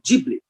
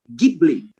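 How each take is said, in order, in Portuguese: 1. É pronunciado do jeito do inglês americano. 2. Começa com um G forte, no estilo italiano. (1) "eles falam Ghibli" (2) "na Itália, é com um G, som de G"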